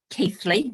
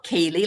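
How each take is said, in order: First: Keithley said with a "th" in the middle, KEETH-lee; local pronunciation. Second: Keighley said KEE-lee, with no "th"; common mispronunciation. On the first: Guest correcting how her town is said, Keithley as KEETH-lee. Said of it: "it's pronounced Keithley". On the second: Guest showing what everybody thinks, Keighley mispronounced KEE-lee. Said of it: "not Keighley, like everybody thinks". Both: Shown as a demonstration.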